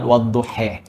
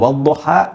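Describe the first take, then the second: First: The final vowel sounds like e. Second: The final vowel sounds like a. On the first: "dengan e dengan imalah" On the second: "Kita baca"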